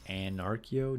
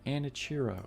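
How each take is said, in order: First: The name starts with the sounds of 'anarchy'. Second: The name is said as 'Anichiro', without 'anarchy'. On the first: The name comes from the idea of anarchy. The speaker calls it right. "So it's Anarchio" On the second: The link to anarchy is lost. The speaker calls it wrong. "pronouncing it Anichiro"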